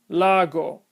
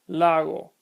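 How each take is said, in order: First: The g is a full hard stop. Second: The g is a soft, partial closure. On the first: The speaker calls it wrong. "If I mispronounce these words with hard sounds" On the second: The speaker calls it right. "But the correct pronunciation is"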